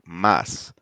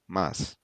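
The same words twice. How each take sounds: First: The word is said with strong force. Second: The word is said with weak force. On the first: It means more. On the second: It means but.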